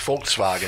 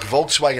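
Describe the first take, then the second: First: The word begins with an F sound. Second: The word begins with a V sound.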